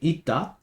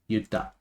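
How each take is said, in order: First: The word begins with an 'ee' sound. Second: The word begins with a 'yoo' sound. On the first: "instead of saying" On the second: "I might say"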